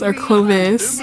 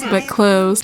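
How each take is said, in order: First: Clovis as two syllables, KLOH-vis; name said Clovis. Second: Cloves as one syllable, rhyming with loaves; name said Cloves. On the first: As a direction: try Clovis, with a clear vis ending. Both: Shown as a demonstration.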